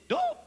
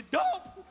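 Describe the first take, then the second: First: Squeaky, much higher indignant "Dope?"; excited voice change. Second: Higher indignant "Dope?" repeated; excited voice change. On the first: Uncle outraged at the steward, squeaky high cry. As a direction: voice jumps way up in outrage. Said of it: "when they get excited, their voice changes". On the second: Uncle repeating the charge, raised indignant pitch. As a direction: squeak the word in offended disbelief. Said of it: "their voice changes". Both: Retold or imitated.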